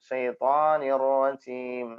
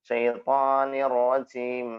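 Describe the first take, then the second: No difference in how they are said.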